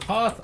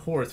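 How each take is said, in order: First: The vowel runs straight into the th sound. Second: An R sound comes before the th sound. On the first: The speaker calls it right. "instead of Hoth" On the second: The speaker calls it wrong. "I always pronounce it Horth"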